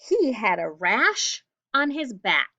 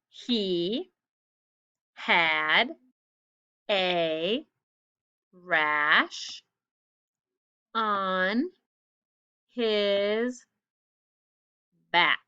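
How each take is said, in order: First: It is said at normal speed. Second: It is said slowly.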